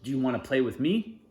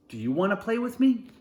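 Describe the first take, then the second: First: Said in the usual way. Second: High, louder hopeful ask; eager question. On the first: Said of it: "and says". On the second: Acted. Sebastian asking the boy to play, eager and high. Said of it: "Sebastian says".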